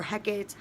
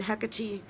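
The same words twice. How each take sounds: First: Hecate said as HEK-ate; Hecate with the final e silent; two-syllable pronunciation. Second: Hecate said as HEK-uh-tee; Hecate with the final e sounded as ee; three-syllable pronunciation. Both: Shown as a demonstration. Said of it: "however you wanna pronounce that".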